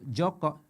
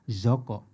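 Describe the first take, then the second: First: The name starts with a J sound. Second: The name starts with a Z sound, Medan-style.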